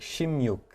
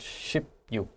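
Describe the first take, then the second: First: The syllables blend, with a changed linking sound. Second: The syllables are said separately, sip then yuk. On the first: "it sounded more like 십육" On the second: "not so much 십육"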